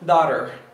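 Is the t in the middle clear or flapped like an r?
flapped. The middle t sounds like a quick r. This is the American pronunciation. "No inglês americano, esse T vai adotar uma forma, uma sonoridade de um R"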